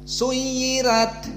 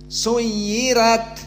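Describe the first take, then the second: No difference in how they are said.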